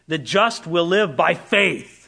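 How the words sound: The stress is on "faith".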